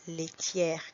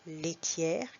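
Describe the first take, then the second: No difference in how they are said.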